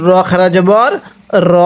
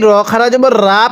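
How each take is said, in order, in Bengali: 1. শেষ স্বরটি ছোট। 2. শেষ স্বরটি টেনে লম্বা করে।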